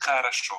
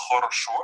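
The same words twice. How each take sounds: First: "хорошо" said as "kharasho"; O reduced to A. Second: "хорошо" with every O kept as a full O; pronounced as written. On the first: Teacher showing real pronunciation, "хорошо" as "kharasho". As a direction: turn the first two Os of "хорошо" into A. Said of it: "change the O, the O, the letter O into a O". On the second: Teacher showing the spelling, "хорошо" with full O sounds. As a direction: say "хорошо" letter by letter, rounded O sounds. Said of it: "you would write хорошо". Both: Shown as a demonstration.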